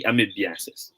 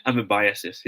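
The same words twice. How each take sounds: First: Amoebiasis said a-mee-bee-AH-sis, the way it should not be; the wrong version: a-mee-bee-AH-sis; wrong pronunciation. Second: Amoebiasis said am-uh-BY-uh-sis, stress on BY; the right way: am-uh-BY-uh-sis; correct pronunciation. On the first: Teacher showing students the mistaken reading: a-mee-bee-AH-sis. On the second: Teacher contrasting right and wrong for students: am-uh-BY-uh-sis. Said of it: "hindi amoebiasis". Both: Shown as a demonstration.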